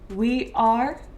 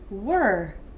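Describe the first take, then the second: First: The two words are said separately in full. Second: The two words merge into one short syllable.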